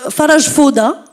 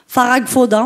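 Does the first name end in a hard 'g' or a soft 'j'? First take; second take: soft j; hard g. First: The first name ends in a soft 'j' sound. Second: The first name ends in a hard 'g' sound.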